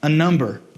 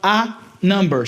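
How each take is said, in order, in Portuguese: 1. As duas palavras são ditas juntas. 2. As duas palavras são ditas separadas. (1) "Esse A vai juntar com esse N" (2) "a gente não vai falar a number"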